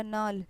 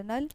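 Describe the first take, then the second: First: नाल with a long open "aa"; long aa vowel. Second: नल with a short "uh" vowel, like "nul". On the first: Teacher adding the matra for students, long-vowel नाल. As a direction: stretch the vowel of नाल to "naal". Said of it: "इसमें आ की मात्रा जुड़ा". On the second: Teacher showing the word without matra, short-vowel नल. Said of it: "इसमें कोई मात्रा नहीं है". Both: Shown as a demonstration.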